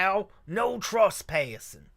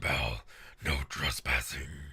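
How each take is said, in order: First: It sounds slightly Southern. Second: It is a very low Batman voice.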